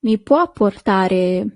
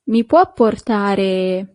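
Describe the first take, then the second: First: "Mi può portare?" repeated slowly, rising on the end. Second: "Mi può portare?" said slowly, every syllable clear, stress on "può"; slow model phrase. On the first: Teacher repeating "Mi può portare?" slowly for students to repeat. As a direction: echo "Mi può portare?" gently so they can copy. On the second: Teacher modelling "Mi può portare?" slowly for the class. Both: Shown as a demonstration. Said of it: "Yes, that's".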